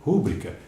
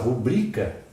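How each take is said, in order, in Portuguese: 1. A sílaba tônica está na primeira sílaba. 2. A sílaba tônica está na segunda sílaba. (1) "muitos até acentuam aquele U" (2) "é paroxítona"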